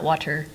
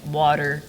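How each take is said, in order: First: The t is clearly pronounced. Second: The t is soft and skipped. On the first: This is how Californians do not say it. "and not water" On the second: This is how Californians say it. "how we say like water"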